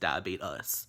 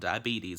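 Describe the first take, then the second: First: The word is said in a Southern accent. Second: The word is said in a general accent. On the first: "here in the South, we call things" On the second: "It's not diabetes"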